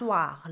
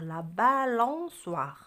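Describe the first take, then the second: First: Said in the usual way. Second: La balançoire said slowly and louder, each syllable clear; slow model. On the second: Shown as a demonstration. Teacher slowly modelling balançoire for pupil. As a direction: stretch La balançoire out for the child.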